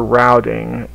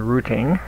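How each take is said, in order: First: It is said in the speaker's usual accent. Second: It is said in a New England accent.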